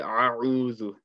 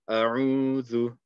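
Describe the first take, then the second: First: The first vowel starts with a mid-throat squeeze. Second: The first vowel starts plainly, deep in the throat. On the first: The speaker calls it wrong. "don't say a'udhu, You might accidentally turn this into a ain too" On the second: The speaker calls it right. "keep this um, from the bottom of the throat"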